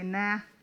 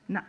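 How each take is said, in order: First: The word ends with an open, unstopped vowel. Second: The word ends with a sharp glottal catch. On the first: The speaker has not heard the language. The speaker calls it wrong. "if they say nah, then you know they're, they don't, they haven't heard the language" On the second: The speaker knows the language. The speaker calls it right. "That's a glottal. That thing at the end"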